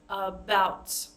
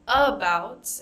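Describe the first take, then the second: First: The stress is on the second syllable. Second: The stress is on the first syllable. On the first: The speaker calls it right. "it's about. About is stressed" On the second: The speaker calls it wrong. "It's not about"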